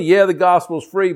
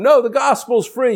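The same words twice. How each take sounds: First: Said in the usual way. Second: High-pitched protest, NO leaping up; insistent higher-pitched contradiction; mock objection. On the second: Acts out a listener's objection.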